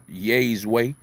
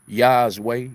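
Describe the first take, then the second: First: "Yay's" tentatively said to rhyme with days; "Yay's" with the vowel of "say"; trying a pronunciation. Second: "Yah's" with an open AH vowel; "Yah's" with the vowel of "spa"; trying another pronunciation. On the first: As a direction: sound out "Yay's" with a long AY vowel. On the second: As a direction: sound out "Yah's" as an alternative reading of the name. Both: Shown as a demonstration. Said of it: "I don't know how to pronounce it".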